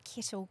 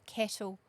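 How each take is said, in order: First: Kettle said as "kittle", short i, Kiwi style. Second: Kettle with an open e, Australian style. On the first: Correcting herself to parents, Kiwi "kittle" for kettle. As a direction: say kettle the New Zealand way, like "kittle". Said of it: "Kiwi accent". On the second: Correcting herself to parents, Aussie kettle with open e. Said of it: "Oh, no, not kettle". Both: Shown as a demonstration.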